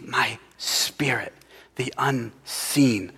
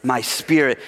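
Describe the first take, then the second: First: Slow unvoiced whisper, much softer. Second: Said in the usual way. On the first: Shown as a demonstration. Preacher quoting Zechariah, whispered slowly. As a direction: breathe the words out slowly. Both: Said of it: "you see".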